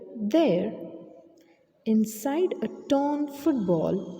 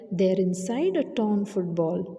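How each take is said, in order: First: There is a short pause after "There". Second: It runs on with no pause after "There".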